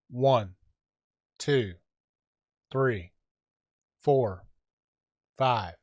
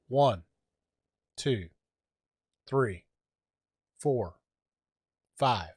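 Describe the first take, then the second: First: The voice has the suppression setting at minus four. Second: The voice has the suppression setting at zero. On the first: "I'm going to switch it to minus four" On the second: "let's do a short count of uh, zero"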